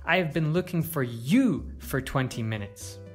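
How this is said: The stress is on the word you. It was this person, not someone else, being sought. "To stress you"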